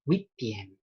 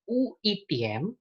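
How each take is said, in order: First: The vowel is said with a wi glide. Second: The vowel is said without a wi glide. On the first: The speaker calls it right. "Tatkala U bertemu dengan I, dia dibaca wih" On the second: The speaker calls it wrong. "bukan uitiem"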